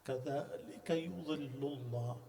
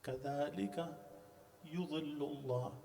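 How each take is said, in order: Both takes have the same delivery.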